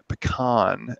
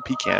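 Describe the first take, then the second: First: Pecan is said in a Southern US accent. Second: Pecan is said in a Northern US accent.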